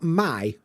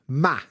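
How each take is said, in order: First: The word has the full 'eye' vowel sound. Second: The word has a flat 'ah' vowel sound. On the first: "Not my"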